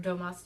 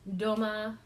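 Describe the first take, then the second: First: The final S sound is pronounced. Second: The final S sound is dropped. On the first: "or Domas, depending on how you say it" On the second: "I tend to fall into my, my French training and just drop that S"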